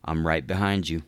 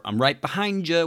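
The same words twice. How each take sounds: First: Said in the usual way. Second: Higher, loud jokey threat; hammed-up creepy comment; mock menacing. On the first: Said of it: "you type".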